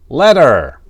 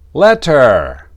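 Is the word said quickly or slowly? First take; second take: quickly; slowly. First: The word is said quickly and reduced. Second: The word is said slowly and carefully.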